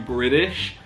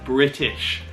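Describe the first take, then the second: First: The middle T sounds soft, like a D. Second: The middle T is a crisp T sound. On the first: This is how North Americans say it. "this becomes more of a D" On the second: This is how it is said in the UK. "this stays as a T"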